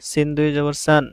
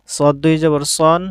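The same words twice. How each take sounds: First: "সান" said with a thin, open a; light س sound, "সান" with a clear a; light letter with tanween. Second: "সন" said with a full, dark o; heavy ص sound, "সন" rounded like o; heavy letter with tanween. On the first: (পাতলা স্বরে "সান") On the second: (মোটা স্বরে "সন") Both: Shown as a demonstration. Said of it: "তানবিনের মাধ্যমে হরফের উচ্চারণের পার্থক্য".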